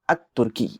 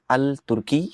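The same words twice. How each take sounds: First: "अत तुर्की" with the lam merged into a doubled T; correct assimilation. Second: "अल तुर्की" with the L sounded, marked as wrong; wrong pronunciation. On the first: Teacher gives students the correct sun-letter form. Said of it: "आप कहेंगे". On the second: Teacher shows students the wrong form with lam. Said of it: "आप ये नहीं कहेंगे". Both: Shown as a demonstration.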